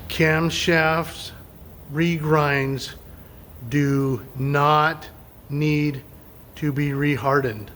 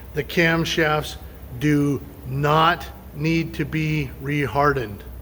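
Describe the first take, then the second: First: It is said slowly and deliberately. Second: It is said at normal speed.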